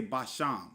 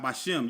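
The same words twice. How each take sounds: First: "Basham" ending in an open "shahm"; correct vowel shown. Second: "Bashim" ending in "shim"; wrong vowel shown. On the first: Teacher showing what you'll say, "Basham" with open ah. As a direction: say "Basham" with an ah in the last syllable. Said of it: "You'll say Basham". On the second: Teacher showing what you wouldn't say, "Bashim" with short i. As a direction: say "Bashim" with a short i in the last syllable. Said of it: "you wouldn't say". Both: Shown as a demonstration.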